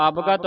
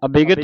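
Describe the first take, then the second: First: ਅਬਗਤ said as abgat with no vowel after b; ਅਬਗਤ clipped to two syllables, ab-gat; correct pronunciation. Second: ਅਬਿਗਤ said as a-bi-gat with an added i after b; ਅਬਿਗਤ spread over three syllables, a-bi-gat; wrong pronunciation. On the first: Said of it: "ਅਬਗਤ ਪੜ੍ਹਨਾ ਹੈ". (ਅਬਗਤ ਬਿਨਾਂ ਸਿਹਾਰੀ ਦੇ, ਅਬ-ਗਤ) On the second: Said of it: "ਅਬਿਗਤ ਨਹੀਂ ਪੜ੍ਹਨਾ". (ਅਬਿਗਤ ਸਿਹਾਰੀ ਲਾ ਕੇ, ਗਲਤ ਉਚਾਰਨ) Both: Shown as a demonstration.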